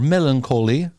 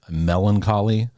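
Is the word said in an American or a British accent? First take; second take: British; American. First: The word is said in a British accent. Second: The word is said in an American accent.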